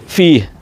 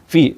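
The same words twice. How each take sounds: First: The word ends with an audible h sound. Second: The word ends without any h sound. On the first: The speaker calls it right. "हे की आवाज़ आपको निकालनी पड़ेगी" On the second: The speaker calls it wrong. "हे की अदायगी ही नहीं की जाती है"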